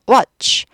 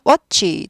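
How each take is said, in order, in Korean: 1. 이 단어는 한 음절로 발음됩니다. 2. 이 단어는 두 음절로 발음됩니다. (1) "한 박자예요" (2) "두 박자 아니에요"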